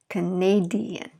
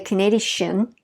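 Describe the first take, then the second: First: The ending is split into two separate syllables. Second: The ending is squeezed into one syllable. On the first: The speaker calls it right. "that adds one more syllable, Canadian" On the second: The speaker calls it wrong. "We don't say Canadian"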